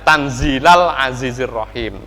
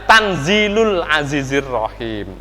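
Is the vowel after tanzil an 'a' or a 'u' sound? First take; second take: a; u. First: The vowel after tanzil is an 'a' sound. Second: The vowel after tanzil is a 'u' sound. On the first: It means recite the revelation of the Mighty, the Merciful. "lafat tanzil binasbi kelawan nasab" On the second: It means this Quran is sent down from the Mighty, the Merciful. "lafat tanzil birraf iklawan rafa"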